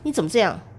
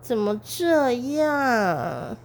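First: It is said sharply, sounding angry. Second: It is said slowly in a coquettish voice.

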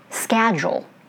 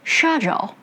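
First: It is said with an American accent. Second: It is said with a British accent. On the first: "American way" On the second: "British way"

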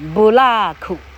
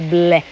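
First: Three syllables with a vowel after k. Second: One syllable with a faint final k. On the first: "总之就是日本发音哈"

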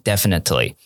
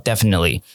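First: The t sound is clearly pronounced. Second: The t sound is dropped. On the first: "Elsa 她可能会希望你念definitely" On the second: "那个t 会去做一个消音"

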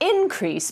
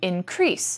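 First: The stress is on the first syllable. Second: The stress is on the second syllable. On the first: It is used as a noun. "When you say the noun, you would say an increase" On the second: It is used as a verb. "but when you say the verb, you say to increase"

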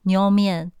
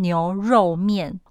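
First: It is said quickly with syllables blended together. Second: It is said slowly with each syllable separate.

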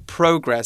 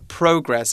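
First: It is said in a British accent. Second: The same.

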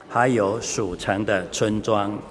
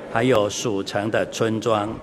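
Both takes have the same delivery.

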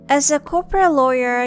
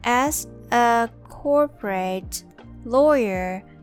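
First: It is said at normal speed. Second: It is said slowly.

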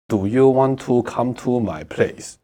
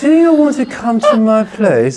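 First: It is said flat, like a full stop. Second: It is said lively, with expressive intonation.

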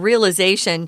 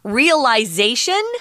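First: The word is said with an American pronunciation. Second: The word is said with a British pronunciation. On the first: "which is what Americans say" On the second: "which is more UK, British pronunciation"

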